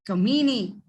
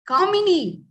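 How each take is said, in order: First: The name is said in an anglicized way. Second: The name is said in its native way. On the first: This is how someone else said the name. The speaker calls it wrong. "and not Kamini" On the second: This is how the owner says her name. The speaker calls it right. "it is Kamini"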